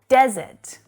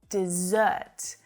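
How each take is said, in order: First: The stress is on the first syllable. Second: The stress is on the second syllable. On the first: An area of land without much water. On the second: To abandon someone. "Exactly like dessert"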